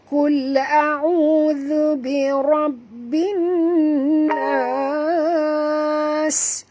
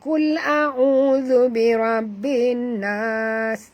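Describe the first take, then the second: First: The final s is clearly pronounced. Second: The final s is barely heard. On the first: The speaker calls it right. "bunyikan sin yang mati tu" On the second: The speaker calls it wrong. "tak dengar pun sin"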